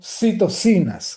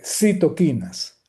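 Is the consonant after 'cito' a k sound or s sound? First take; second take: s sound; k sound. First: The consonant after 'cito' is an s sound. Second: The consonant after 'cito' is a k sound. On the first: The speaker calls it wrong. "y no citocinas, como algunos dicen por allí" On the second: The speaker calls it right. "yo prefiero la pronunciación y de hecho, desde el punto de vista etimológico, es la correcta"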